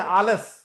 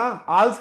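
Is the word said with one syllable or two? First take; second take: two; one. First: The word is said with two full syllables. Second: The word is squeezed into one syllable. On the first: The speaker calls it right. "आलस, A double L E S" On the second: The speaker calls it wrong. "आल्स क्लार नहीं है"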